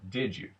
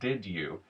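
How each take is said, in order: First: The d and y merge into a j sound. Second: The d and y sounds stay separate.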